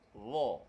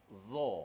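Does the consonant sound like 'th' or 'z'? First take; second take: th; z. First: The consonant is a voiced th, tongue between teeth. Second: The consonant is a plain buzzing z sound. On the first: The speaker calls it right. "Lidah tu kena. Kena keluar. ... itu cara sebut dha yang betul" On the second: The speaker calls it wrong. "dia suka sebut macam ni. Dia sebut za. ... tak betul. Sebut za salah"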